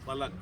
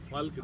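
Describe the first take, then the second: First: It is said with a vowel after the L. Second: It is said without a vowel after the L. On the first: The speaker calls it right. "नहीं फलक" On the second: The speaker calls it wrong. "फल्क नहीं"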